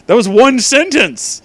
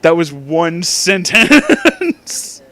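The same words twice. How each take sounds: First: Exasperated outburst. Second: Laughing disbelief. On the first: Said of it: "exasperated outburst at fanfic". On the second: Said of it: "laughing repeat of the line". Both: Real, not acted.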